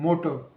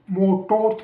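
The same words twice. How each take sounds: First: "मोटर" with a weak schwa ending and silent R; correct schwa ending. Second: "मोटो" ending on a strong, full O; wrong full-O ending. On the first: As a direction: let "मोटर" fall away on a light uh. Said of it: "बोलते हैं". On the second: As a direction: mispronounce "मोटो" with a clear final O. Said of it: "थोड़ी बोलते हैं हम". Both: Shown as a demonstration.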